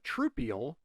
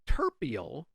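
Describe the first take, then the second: First: The first syllable sounds like 'troop'. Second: The first syllable sounds like 'ter'. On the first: "Commonly referred to simply as a troupial" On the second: "in Venezuela, they pronounce it slightly different, as terpial"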